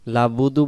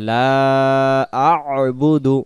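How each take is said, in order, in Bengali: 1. 'La' সরাসরি 'budu'-তে গিয়ে মেশে, মাঝে কোনো অক্ষর নেই। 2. 'la'-র পরের অক্ষর একটি গলার ব্যঞ্জন দিয়ে শুরু হয়।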